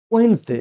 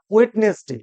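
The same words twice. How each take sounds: First: ওয়েডনেসডে shrunk to "wens-de", first d silent; corrected Wednesday. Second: ওয়েডনেসডে with every letter sounded, "wed-nes-de"; mispronounced Wednesday. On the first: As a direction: say ওয়েডনেসডে in two syllables, "WENZ-day". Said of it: "কিন্তু সঠিক উচ্চারণটা কি হবে?". (ওয়েডনেসডে-র সঠিক উচ্চারণ, "ওয়েন্স-ডে") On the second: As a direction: say ওয়েডনেসডে in three parts, d and middle vowel heard. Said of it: "সবচেয়ে বেশি ভুল করি". (ওয়েডনেসডে-র ভুল উচ্চারণ, "ওয়েড-নেস-ডে") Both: Shown as a demonstration.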